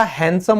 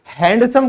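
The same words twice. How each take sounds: First: हैंडसम as "han-sum", D dropped; correct silent D. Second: हैंडसम with the D sounded; wrong pronunciation. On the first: Teacher correcting students on हैंडसम, D kept silent. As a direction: say हैंडसम without any D. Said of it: "हैंडसम होता है". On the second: Teacher showing students the mistake in हैंडसम, D wrongly sounded. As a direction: say हैंडसम with a clear D before the S. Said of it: "कभी नहीं होता". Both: Shown as a demonstration.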